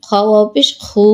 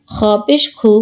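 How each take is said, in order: First: Long, sustained খু; drawn-out vowel. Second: No stretch on খু; short vowel. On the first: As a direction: hold the final খু for one alif count. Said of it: "কোথায় টান দিই". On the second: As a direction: end on a short খু. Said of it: "কোথায় দ্রুত পড়ি". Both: Shown as a demonstration.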